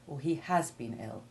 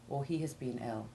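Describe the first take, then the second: First: The verb is stressed with a full vowel. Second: The verb is full but said without stress. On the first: "put special stress on the severity of the illness" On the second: "rather than"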